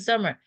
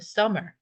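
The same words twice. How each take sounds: First: It is pronounced with Korean-style sounds. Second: It is pronounced with English-style sounds. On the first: The speaker calls it wrong. "summer라고 읽는 사람들 있는데" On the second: The speaker calls it right. "영어로는 summer"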